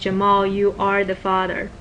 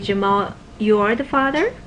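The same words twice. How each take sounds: First: The pitch falls at the end. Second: The pitch rises at the end. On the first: It is a firm, final declaration. "Following intonation, that's more poetic, declaring you are the father" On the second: There is still some doubt about it. "then there is still a, a little bit of a question"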